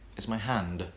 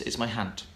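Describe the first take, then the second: First: The final sound is a voiced d. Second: The final sound is a voiceless t. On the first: The speaker calls it right. "It's not my hand" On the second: The speaker calls it wrong. "words that end in a D sound will become a T"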